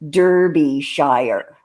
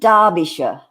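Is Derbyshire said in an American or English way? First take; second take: American; English. First: It is said the American way. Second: It is said the English way. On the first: "American people pronounce where you live Derbyshire" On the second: "You pronounce it Derbyshire"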